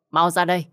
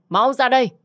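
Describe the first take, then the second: First: A firm loud call, not yet at full force; calling out loudly. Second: Full shout. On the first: Mother-in-law banging on the door, loud call. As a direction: call her out of the room sharply. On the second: Mother-in-law at the door, shouting at full force. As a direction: repeat it as a much higher, much louder yell. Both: Acted. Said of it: "Bà hét lớn với cô".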